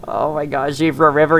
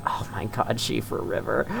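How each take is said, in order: First: Said in the usual way. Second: Breathless, very soft awe; near-whispered wonder; awed hush. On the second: Real, not acted. Awed by the scenery.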